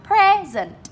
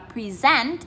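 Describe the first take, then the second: First: The stress is on the first syllable. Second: The stress is on the second syllable. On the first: It is the noun meaning a gift. "Danh từ hai âm tiết chúng ta đánh dấu trọng âm 1" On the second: It is the verb meaning to give a presentation. "các bạn lên giọng ở âm số 2"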